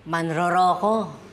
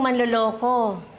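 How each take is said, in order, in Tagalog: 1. Ang mga tunog L ay napapalitan ng tunog R. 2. Ang salita ay binibigkas na may tunog L.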